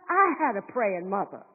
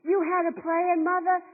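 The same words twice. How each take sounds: First: "I" stressed lower and falling. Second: "You" stressed higher, pointing at the listener. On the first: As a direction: lean on "I" as the contrast. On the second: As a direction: lean on "You" as the contrast. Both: Shown as a demonstration.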